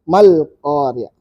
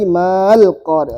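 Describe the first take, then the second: First: The vowel of ma is kept short. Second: The vowel of ma is held long. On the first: The speaker calls it right. "ma-nya panjang batal" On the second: The speaker calls it wrong. "Bukan lagi mal Qari'ah"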